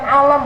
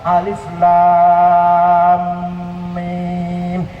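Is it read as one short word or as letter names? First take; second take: one word; letter names. First: It is read as one short word. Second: It is read as three separate letter names. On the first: The speaker calls it wrong. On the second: The speaker calls it right.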